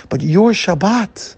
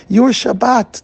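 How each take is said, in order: First: "your" slow and rising; stress on your. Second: "your" higher and louder; stronger stress on your. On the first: Rabbi stressing "your" to the guest, slow rising. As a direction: lean into "your" in "your Shabbat". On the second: Rabbi repeating "your Shabbat", louder and higher. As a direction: punch "your" in "your Shabbat" harder. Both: Shown as a demonstration.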